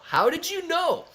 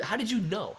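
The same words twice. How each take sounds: First: Mock surprise. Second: Said in the usual way. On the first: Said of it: "repeats the question, much higher". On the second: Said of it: "repeats the question for effect".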